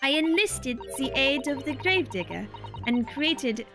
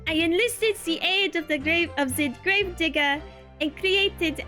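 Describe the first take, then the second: First: It is spoken in a British accent. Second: It is spoken in a French accent. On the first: The speaker calls it wrong. "Oh my god, I keep going to Britain!" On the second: The speaker calls it right. "that's how I get back in the French mode"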